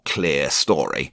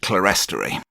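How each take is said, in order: First: The first part sounds like the word clear. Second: The first part does not sound like clear. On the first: This is the British pronunciation. "or clear story, but that just doesn't sound right to me, although I generally lean to U K pronunciation" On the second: This is the Canadian pronunciation. "Everyone I've met in Canada pronounces it clerestory"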